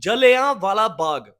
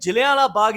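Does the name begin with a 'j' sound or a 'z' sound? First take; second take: j sound; z sound. First: The name begins with a 'ja' sound. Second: The name begins with a 'zi' sound. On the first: The speaker calls it right. "ਇਸ ਨੂੰ ਜਲਿਆਂ ਵਾਲਾ ਬਾਗ ਬੋਲਿਆ ਜਾਂਦਾ ਵਾ" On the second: The speaker calls it wrong. "ਮਗਰ ਜ਼ਿਲ੍ਹਿਆਂ ਵਾਲਾ ਬਾਗ ਨਹੀਂ"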